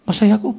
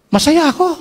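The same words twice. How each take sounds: First: Said in the usual way. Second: Excited. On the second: Retold or imitated. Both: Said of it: "sabi na masaya ako".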